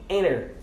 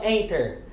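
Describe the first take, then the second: First: The T after the N is dropped. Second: The T after the N is clearly pronounced. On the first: The speaker calls it right. "eles pronunciam enter" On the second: The speaker calls it wrong. "Os americanos eles não pronunciam enter"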